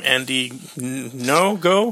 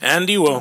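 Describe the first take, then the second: First: The surname begins with an n sound. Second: The surname begins with a w sound. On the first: "it's NGO" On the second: "So it's like a W sound"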